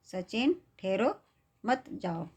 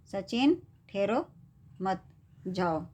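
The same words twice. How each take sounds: First: "मत जाओ" kept together after a pause; pause after ठहरो. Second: "मत" set apart by a pause before "जाओ"; pause after मत. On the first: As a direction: stop after "ठहरो", then run "मत जाओ" as one phrase. ("ठहरो" के बाद रुककर "मत जाओ" साथ बोलें) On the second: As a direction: break after "मत", then say "जाओ" on its own. ("मत" के बाद रुककर "जाओ" अलग बोलें) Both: Shown as a demonstration. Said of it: "अलग-अलग जगह रुकने के कारण".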